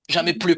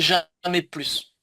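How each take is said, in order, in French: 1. Le s final de « plus » est muet. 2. Le s final de « plus » se prononce.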